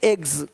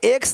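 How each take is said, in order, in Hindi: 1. यह शब्द एक भनभनाती z ध्वनि पर समाप्त होता है। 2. यह शब्द एक फुफकार जैसी s ध्वनि पर समाप्त होता है। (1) "ज का साउंड आ रहा है हल्का सा" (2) "एक्स नहीं"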